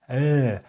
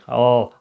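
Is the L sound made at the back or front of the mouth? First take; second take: front; back. First: The L is clear, made at the tongue front. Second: The L is dark, made far back, like O. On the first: The speaker calls it right. "It's L" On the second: The speaker calls it wrong. "Not in the uh, back part, like oh"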